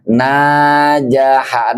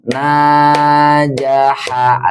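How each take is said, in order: First: Najaha read slowly, with a hand-gesture beat; slow recitation. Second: Najaha stretched slowly over two knocks; two-beat reading. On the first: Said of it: "gerakan tangan". (membaca najaha pelan dengan gerakan tangan) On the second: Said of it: "Ada yang ketokan, dua ketokan". (membaca najaha dengan dua ketukan) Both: Shown as a demonstration.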